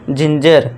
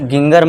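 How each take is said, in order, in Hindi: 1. यह j की आवाज़ से शुरू होता है। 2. यह hard g की आवाज़ से शुरू होता है। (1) "जा का साउंड देना है आपको" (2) "इसे गिंगर मत पढ़ना"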